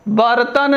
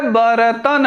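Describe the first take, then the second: First: बर्तन run together as bart-tan; wrong pronunciation. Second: बर्तन slowly opened up, ba-ra-tan; slow बर्तन, full r apart from t; correct pronunciation. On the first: Teacher showing the faulty form, wrong pronunciation. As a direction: join r straight to t in बर्तन. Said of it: "बर्तन नहीं है". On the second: Teacher giving the correct form, correct pronunciation. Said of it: "बर्तन है". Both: Shown as a demonstration.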